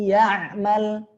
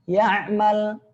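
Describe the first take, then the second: Both takes have the same delivery.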